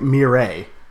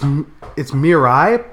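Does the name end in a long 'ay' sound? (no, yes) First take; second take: yes; no. First: The name ends in a long 'ay' sound. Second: The name does not end in an 'ay' sound. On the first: The speaker calls it wrong. "I just figure it's an A. Like the A sound" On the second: The speaker calls it right. "It's Mirai"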